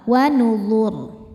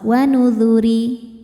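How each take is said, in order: First: The final r is heavy and thick, stopped. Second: The r is light and thin, vowel follows. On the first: The reading stops at this word. "ro-nya dibaca tebal" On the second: The reading continues into the next verse. "ro-nya tipis kalau wasol"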